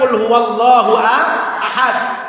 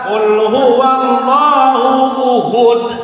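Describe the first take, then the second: First: The last word starts with an a vowel. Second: The last word starts with a u vowel. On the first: The speaker calls it right. "Yang benar bacanya" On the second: The speaker calls it wrong. "Contoh kan salah itu kan"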